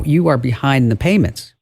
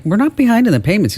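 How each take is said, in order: First: Said in the usual way. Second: Indignant denial. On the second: Retold or imitated. CFO protests to the fake CEO, indignant and quick. CFO denies being behind.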